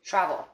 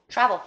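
First: Said in the usual way. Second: Travel said higher and louder, a punchy command; emphatic. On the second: Real, not acted. Reader urges the listener to go, emphatic Travel. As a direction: hit Travel like an order. Repeating the card word.

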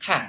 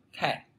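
First: "Cat" said with an open A. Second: "khe", cat with an E-like vowel. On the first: ("Cat" đọc với âm A) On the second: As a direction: close the vowel towards E in "khe". ("khe" đọc nghiêng về âm E) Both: Shown as a demonstration. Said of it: "hoặc là khe".

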